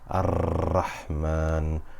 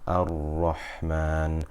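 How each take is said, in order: First: The r is trilled strongly with many taps. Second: The r is held without any trilling. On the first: The speaker calls it wrong. "we shouldn't say Rahman or Ar-Rahman, because this is too much" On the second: The speaker calls it right. "I'm avoiding the trilling"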